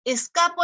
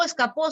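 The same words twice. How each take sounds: First: "escapo" hit on the middle syllable; stress on CA of escapo. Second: "escapó" hit on the last syllable; stress on PÓ of escapó. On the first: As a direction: lean on CA in "escapo". (acento en CA de «escapo») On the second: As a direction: lean on PÓ in "escapó". (acento final en PÓ de «escapó») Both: Shown as a demonstration. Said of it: "el acento cumple función distintiva".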